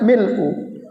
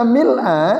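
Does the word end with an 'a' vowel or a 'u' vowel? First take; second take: u vowel; a vowel. First: The word ends with a 'u' vowel. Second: The word ends with an 'a' vowel. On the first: "dibaca mil'u dhamma" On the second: "harokatnya fathah"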